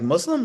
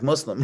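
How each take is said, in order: First: Muslim? asked with a sharp rising tune; questioning Muslim. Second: Muslim, said flat with a falling tune; plain statement. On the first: Nurse double-checking, Muslim? with a rising tune. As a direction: echo Muslim? as a surprised question. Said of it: "Like a question". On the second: Patient answering the nurse, Muslim, said flatly. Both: Retold or imitated.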